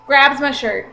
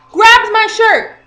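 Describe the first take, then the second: First: Said in the usual way. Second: "Grabs my shirt" said much higher, louder and slow; outraged retelling with "Grabs my shirt" punched loud and high; shocked emphasis. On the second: Shown as a demonstration. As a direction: hit "Grabs my shirt" hard and high, slowly.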